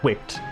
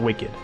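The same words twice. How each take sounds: First: It is said as one syllable, 'wickt'. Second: It is said as two syllables, 'wick-id'. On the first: It means having a wick, like a candle. The speaker calls it right. "It's candled" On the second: It means cool or radical. The speaker calls it wrong. "not like radical"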